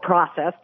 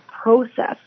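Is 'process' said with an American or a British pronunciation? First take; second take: American; British. First: The word has an American pronunciation. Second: The word has a British pronunciation.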